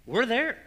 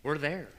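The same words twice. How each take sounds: First: "We're there" pitched much higher and louder; emphatic repeat. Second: Said in the usual way. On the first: Real, not acted. Preacher warning of a world of doubt, emphatic "We're there". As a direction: drive home "there" with a high, forceful push.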